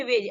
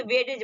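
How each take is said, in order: First: वेज with the D left silent. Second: वेटेज with an extra syllable for the D; wrong sounded D. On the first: Teacher showing learners the silent letter, वेज without D. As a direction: say वेज as one syllable, no D. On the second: Teacher warning against a misreading, वेटेज with D sounded. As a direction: sound out the silent letter in वेटेज. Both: Shown as a demonstration. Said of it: "ऐसा नहीं कि वेटेज बोलेंगे".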